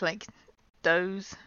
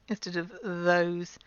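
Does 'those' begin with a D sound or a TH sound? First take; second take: D sound; TH sound. First: It begins with a D sound. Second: It begins with a TH sound. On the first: The speaker calls it wrong. "people make a D sound, like those" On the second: The speaker calls it right.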